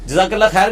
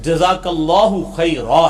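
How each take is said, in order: First: The word endings are dropped. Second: The word endings -u and -a are pronounced. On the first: The speaker calls it wrong. "जज़ाकल्लाह खैर भी गलत है" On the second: The speaker calls it right. "जज़ाकल्लाहु खैरा है"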